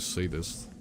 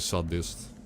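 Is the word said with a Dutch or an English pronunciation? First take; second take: English; Dutch. First: The word is said with an English pronunciation. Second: The word is said with a Dutch pronunciation. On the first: "I guess you say sadist" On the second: "But in Dutch it's, uh... Ah. We just say sadist"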